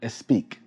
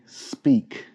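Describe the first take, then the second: First: An extra vowel comes before the S sound. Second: It starts directly with the S sound. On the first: The speaker calls it wrong. "not speak. Do not add an extra vowel" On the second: The speaker calls it right. "Say speak"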